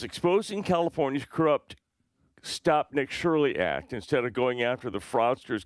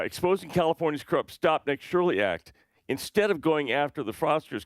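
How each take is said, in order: First: The phrase runs on, breaking after 'fraudsters'. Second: The phrase breaks after 'Act', not after 'fraudsters'. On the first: The speaker calls it wrong. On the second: The speaker calls it right.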